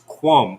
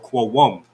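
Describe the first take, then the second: First: The middle sound is dropped, one short syllable. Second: The middle sound is kept, giving two syllables. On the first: The word carries a preposition, possessive or tense. "that y in the middle might drop off, and it'll just be quam" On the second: It is the root or common form. "the root word is quawum"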